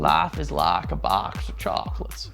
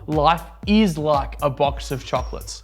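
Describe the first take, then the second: First: It is said in a Forrest Gump impression. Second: It is said in his normal voice.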